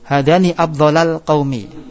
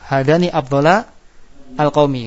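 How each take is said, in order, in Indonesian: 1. Afdhala langsung menyambung ke al-qaumi tanpa jeda. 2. Afdhala dan al-qaumi diucapkan sebagai kata terpisah.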